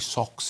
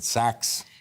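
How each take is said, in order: First: The vowel is the rounded 'o' as in 'lot'. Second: The vowel is an open 'a' as in 'cat'. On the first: "He didn't say socks" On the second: "he said sacks"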